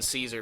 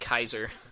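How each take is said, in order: First: The word begins with a soft S sound. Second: The word begins with a hard K sound. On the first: The speaker calls it right. "they're just saying Caesar, but they don't pronounce it properly" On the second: The speaker calls it wrong. "Or as they pronounce it"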